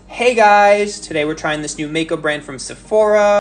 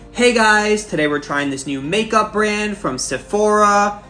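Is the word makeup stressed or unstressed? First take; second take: unstressed; stressed. First: The word makeup is not stressed. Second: The word makeup is stressed with a rising tone.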